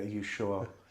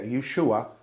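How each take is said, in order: First: It is said in a standard English accent. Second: It is said in a North East English accent.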